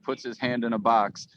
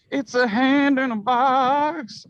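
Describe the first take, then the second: First: Said in the usual way. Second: Much higher and louder, drawn out slowly; squealed up high. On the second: Shown as a demonstration. Reading the plot summary out to the cohost, slow high squeal. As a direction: stretch the line out in a high squeal for the joke.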